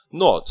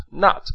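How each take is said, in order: First: Not said with a rounded British o vowel, like "nott"; British pronunciation. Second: Not said with an open American ah vowel, like "naht"; American pronunciation. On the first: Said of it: "是英式英语的发音". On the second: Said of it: "是美式英语的发音". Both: Shown as a demonstration.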